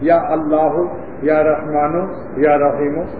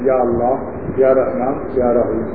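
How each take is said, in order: First: The names end with an added u vowel. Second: The names end without an added u vowel.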